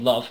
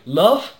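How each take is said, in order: First: The voice falls at the end like a statement. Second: The voice rises at the end like a question. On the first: The title is a plain statement. The speaker calls it wrong. "rather than Love" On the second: The title is a question. The speaker calls it right. "with a question mark, which is why I'm going Love"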